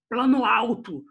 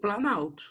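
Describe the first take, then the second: First: Both words are said separately, keeping the o. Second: The words fuse into one, dropping the o. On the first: "parece até que eu estou tendo um problema de fonoaudiologia" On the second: "Se o O foi perdido, eu tenho planalto"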